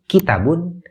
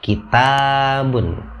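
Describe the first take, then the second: First: The vowel after the t is cut short. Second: The vowel after the t is held long. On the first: The speaker calls it wrong. "taknya dipendekkan" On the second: The speaker calls it right. "Jadi taknya dibaca panjang, sepanjang dua harkat"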